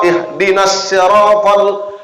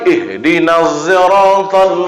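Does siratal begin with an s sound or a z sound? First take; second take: S sound; Z sound. First: Siratal begins with a plain s sound. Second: Siratal begins with a z sound. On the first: "itu pakai sin" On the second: "Pakai zai"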